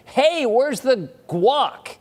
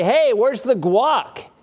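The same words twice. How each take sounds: First: Drawn-out, hammed-up high yell; mock scream. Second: Hammed-up loud demand, drawn out; mock all-caps demand. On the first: Rude guest screaming at host for guac, hammed-up yell. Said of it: "Do you scream at that person". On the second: Rude houseguest demanding guac, mock loud. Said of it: "in all caps?".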